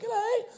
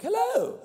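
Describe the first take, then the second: First: Much higher mock English hello; a quick jokey English accent, pitched way up; English accent hammed up, much higher. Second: Much higher put-on falsetto hello; mock falsetto hello, much higher; other voice. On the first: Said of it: "trying to be English". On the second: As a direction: pop the hello way up high as a silly voice. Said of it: "trying to do other voices in the Mac". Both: Shown as a demonstration.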